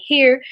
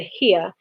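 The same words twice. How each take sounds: First: Said in the usual way. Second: "here" with the r dropped, as "hee-uh"; Southern pronunciation. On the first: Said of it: "Instead of saying". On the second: Shown as a demonstration. Narrator shows Mama's Southern "here" without its r, Southern pronunciation. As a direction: say "here" Southern style, ending in "uh". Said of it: "she said".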